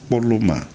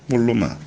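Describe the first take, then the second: Both takes have the same delivery.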